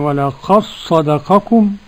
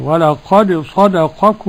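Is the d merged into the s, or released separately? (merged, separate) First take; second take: merged; separate. First: The d merges into one doubled s sound. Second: The d is released with an echoing bounce. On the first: "ننطق بصاد واحدة مشددة" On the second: "والبقون ولا قد بالقلقلة كده"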